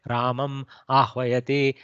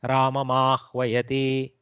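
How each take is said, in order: First: The m stays apart from the next word. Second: The m runs straight into the next word. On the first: This is not how people normally speak. The speaker calls it wrong. "We don't say Ramam Ahvayati" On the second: This is ordinary everyday speech. The speaker calls it right. "That's how we actually speak"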